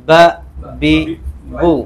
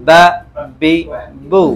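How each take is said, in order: No difference in how they are said.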